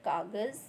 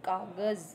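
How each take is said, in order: No difference in how they are said.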